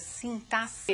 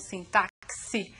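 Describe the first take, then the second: First: The x is said as a plain s sound. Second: The x is said as a ks sound. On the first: The speaker calls it right. "é assim mesmo que se pronuncia" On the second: The speaker calls it wrong. "e não sintaxe, como alguns querem"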